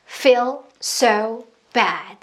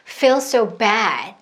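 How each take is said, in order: First: Every word is stressed equally, sounding choppy. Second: Feel and bad are stressed; so is reduced. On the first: The speaker calls it wrong. "다 내용어라서 악센트가 있는 부분이라서 터져야 돼요. ... 이렇게 하면 끊어지잖아요" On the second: The speaker calls it right. "feel이랑 bad가 조금 더 많이 터졌고 so가 좀 들어왔어요"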